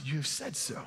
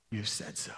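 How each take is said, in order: First: Soft reply. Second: Much lower and far softer, almost breathed; hushed Jesus line. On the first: Jesus answering Judas, retold softly. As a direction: say it quietly, without weight. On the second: Jesus answering Judas at the table, low and hushed. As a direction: let it fall quietly and gravely. Look how he responds. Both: A narrator's reading.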